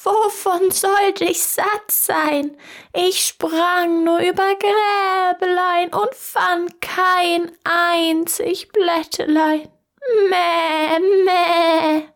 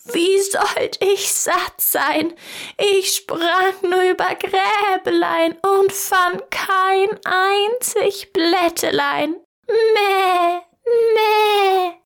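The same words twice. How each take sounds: First: High, slow bleating goat voice, ending in a drawn-out meh. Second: High, slow goat voice, climbing even higher on the meh; a goat complaining with a high bleat. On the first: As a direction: play a lying goat that bleats pitifully. Goat lies to the tailor. (hohe, langsame, meckernde Ziegenstimme) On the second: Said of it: "die Ziege … rief". (hohe, langsame Ziegenstimme, das Meh noch höher) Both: Acted.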